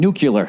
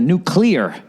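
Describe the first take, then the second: First: It is said the nonstandard way, like 'nucular'. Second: It is said the standard way, like 'nuclear'. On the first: This is how the speaker has always said it. "that and saying nuclear" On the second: This is the form critics insist on. "instead of nuclear"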